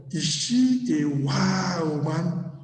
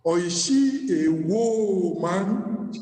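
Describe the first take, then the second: First: Wow drawn out slowly; stress on wow. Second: "whoa" drawn out slow and heavy; stress on whoa. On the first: Asking a brother about his wife, slow stress on wow. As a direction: lean on "wow" in "is she a wow, man". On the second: Asking a brother about his wife, slow stress on whoa. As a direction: lean on "whoa" in "is she a whoa, man". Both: Shown as a demonstration. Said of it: "I'm asking my brother".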